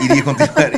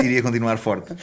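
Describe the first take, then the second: First: High squeaky demo; helium voice. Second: Said in the usual way. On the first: Shown as a demonstration. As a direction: pop it up into a squeak. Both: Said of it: "eu acho que iria continuar forte".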